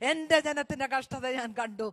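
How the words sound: The words 'my people's' carry strong emphasis. The speaker calls it right. "അവിടെ വരുമ്പോൾ ഒന്ന് ഊന്നി പറയണം"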